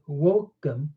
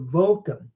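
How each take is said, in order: First: The word begins with a W sound. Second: The word begins with a V sound. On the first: This is the classical Latin pronunciation. "I'm pronouncing it wokem, like a U" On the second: This is the church Latin pronunciation. "in ecclesiastical Latin, I'm told they pronounce the vocum, the V"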